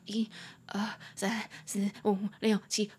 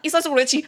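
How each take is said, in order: First: The numbers are counted slowly. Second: The numbers are counted quickly.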